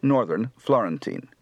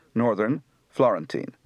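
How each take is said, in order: First: Said in the usual way. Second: Northern said orðern, Florentine with a rolled Italian r; Florentine Italian accent. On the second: Shown as a demonstration. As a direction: speak Northern, Florentine like a Tuscan. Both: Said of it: "Translation done in Italian accents".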